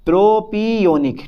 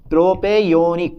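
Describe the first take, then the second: First: "प्रोपियोनिक" with a long "pee" in the middle; pronounced with PI. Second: "प्रोपेयोनिक" with a long "pe" in the middle; pronounced with PE. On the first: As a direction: say "प्रोपियोनिक" slowly as pro-PEE-onic. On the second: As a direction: say "प्रोपेयोनिक" as pro-PAY-onic. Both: Shown as a demonstration. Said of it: "प्रोपी करो".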